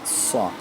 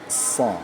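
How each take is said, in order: First: The syllable is said with lips pursed and rounded. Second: The syllable is said with lips not pursed. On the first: The speaker calls it wrong. "mulut kita ini tidak boleh monyong seperti orang bersiul. Kadang ada sa, sa, salah" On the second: The speaker calls it right. "Yang benar itu adalah sa, sa, sa. Tidak monyong, tidak ditajamkan"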